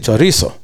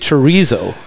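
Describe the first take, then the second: First: The word has a Spanish pronunciation. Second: The word has an English pronunciation. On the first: The speaker calls it right. "I have to say chorizo" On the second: The speaker calls it wrong. "I don't say chorizo"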